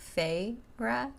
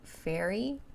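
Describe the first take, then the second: First: The name does not sound like fairy. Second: The name sounds like the word fairy. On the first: The speaker calls it right. "but pronounced Feyre" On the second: The speaker calls it wrong. "like fairy"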